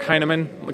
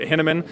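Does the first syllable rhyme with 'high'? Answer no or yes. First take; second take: yes; no. First: The first syllable rhymes with 'high'. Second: The first syllable does not rhyme with 'high'. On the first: The speaker calls it right. "It's [name], kind of like, hey man, are you high? Nah, man" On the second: The speaker calls it wrong. "a lot of people pronounce it Hinaman, and that's incorrect"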